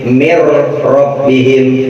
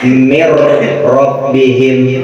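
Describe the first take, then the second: The two takes are said the same way.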